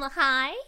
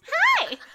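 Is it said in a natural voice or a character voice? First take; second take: natural voice; character voice. First: It is said in her natural voice. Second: It is said in a put-on character voice.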